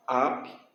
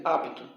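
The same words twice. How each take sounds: First: "Apto" broken as ap, pause, to; split into syllables. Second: Said in the usual way. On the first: Shown as a demonstration. Teacher showing how it separates, "Apto" split at the P. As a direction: say "Apto" in two separate pieces, lower. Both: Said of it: "Separa assim".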